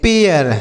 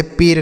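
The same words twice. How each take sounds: First: पेयर in two parts, gliding into "-yer"; careful model reading of पेयर with a "-yer" ending; correct reading. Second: पेर as one syllable with a plain "ay" vowel; wrong reading. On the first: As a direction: set पेयर apart and open the vowel into a glide before r. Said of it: "इसे हम पढ़ेंगे". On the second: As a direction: say पेर without any glide before the r. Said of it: "इसे पेर नहीं पढ़ेंगे". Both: Shown as a demonstration.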